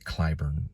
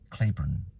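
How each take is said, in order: First: The first syllable does not rhyme with rain. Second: The first syllable rhymes with rain. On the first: Radio and TV announcers say it this way. "they pronounce it Clyburn" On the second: An online pronunciation guide gives it this way. "it's actually Claiborne, like rain, clay"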